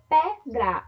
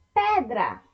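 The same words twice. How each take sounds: First: Pedra split as pe-dra; syllable by syllable. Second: Said in the usual way. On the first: Shown as a demonstration. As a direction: pause between the two syllables of pedra. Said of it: "quando separamos a palavra pedra". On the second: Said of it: "o quarto exemplo de palavras".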